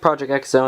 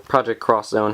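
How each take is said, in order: First: The X is said as the letter name. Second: The X is said as the word cross. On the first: "I personally pronounce it Project X Zone" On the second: "however people pronounce this"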